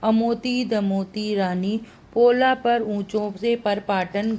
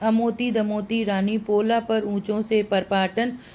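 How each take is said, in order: First: The line is spoken slowly and deliberately. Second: The line is spoken at a normal pace.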